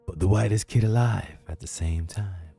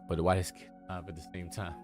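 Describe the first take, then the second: First: It is said in a theatrical, dramatic voice. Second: It is said in an ordinary speaking voice. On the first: The speaker calls it right. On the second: The speaker calls it wrong.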